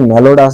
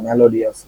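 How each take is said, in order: First: The word is said with three syllables. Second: The word is said with four syllables. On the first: The speaker calls it wrong. "এখানে কিন্তু মেলোডাস বলে না" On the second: The speaker calls it right. "মেলোডিয়াস বলে"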